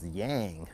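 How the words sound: The word has an American English pronunciation. "in America it's yang"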